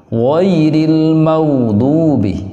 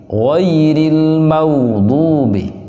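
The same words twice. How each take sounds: The two takes are said the same way.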